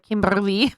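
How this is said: The name is said with a Ukrainian accent. The speaker calls it wrong.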